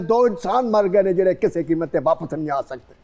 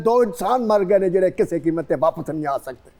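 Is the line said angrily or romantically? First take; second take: angrily; angrily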